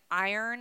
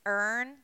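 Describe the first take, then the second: First: Said in the usual way. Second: "earn" as the Maryland way of saying iron, one syllable; Maryland pronunciation. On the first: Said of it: "instead of it being". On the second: Shown as a demonstration. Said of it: "it's earn".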